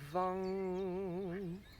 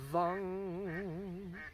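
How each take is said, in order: Both takes have the same delivery.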